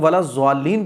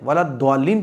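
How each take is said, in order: First: The consonant sounds like a z. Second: The consonant sounds like a plain d. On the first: "जो लोग वाला ज़्वालीन पढ़ते हैं गलत है" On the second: "वाला द्वालीन पढ़ते हैं वो भी गलत है"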